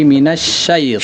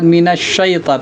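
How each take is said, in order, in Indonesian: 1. Bunyi 'sy' dibuat dengan bibir diam. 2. Bunyi 'sy' dibuat dengan bibir bulat. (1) "lidahnya yang bergerak"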